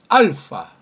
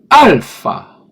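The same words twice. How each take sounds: First: It is said at a quicker, less careful pace. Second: It is said slowly and more precisely.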